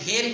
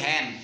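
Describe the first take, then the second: First: The vowel sounds like the one in 'bed'. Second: The vowel sounds like the one in 'bad'. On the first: The speaker calls it wrong. "H ই N হেন কই না" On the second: The speaker calls it right. "আমরা বলি হ্যান"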